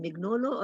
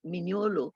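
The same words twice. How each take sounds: First: Mignolo said as MIG-NO-lo, g sounded; hard g pronunciation. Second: Mignolo said as min-YO-lo, g silent; ny pronunciation. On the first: Unsure of the author's name, Mignolo with a hard g. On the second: Offering another way to say the name, Mignolo as "minyolo". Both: Shown as a demonstration. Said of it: "I don't know how you pronounce his name".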